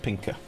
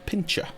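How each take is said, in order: First: The middle consonant sounds like 'k'. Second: The middle consonant sounds like 'ch'. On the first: The speaker calls it right. "but apparently it's pinker" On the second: The speaker calls it wrong. "I've always pronounced it pincher"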